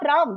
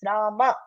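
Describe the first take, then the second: First: The word ends on the m, with no final vowel. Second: The word ends with an audible final ah vowel. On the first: The speaker calls it wrong. "It's not Ram, that's not Hindi" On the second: The speaker calls it right. "it's Rama. Ah should be heard"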